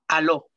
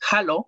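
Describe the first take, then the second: First: The word begins directly with a vowel sound. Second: The word begins with a breathy consonant sound. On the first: This is a regional form. "también podemos escuchar la H como muda" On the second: This is the traditional, standard form. "vamos a escuchar que se lee con J"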